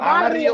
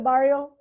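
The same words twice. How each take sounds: First: The word is said with a Spanish accent. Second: The word is said with an American accent. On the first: The speaker calls it right. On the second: The speaker calls it wrong.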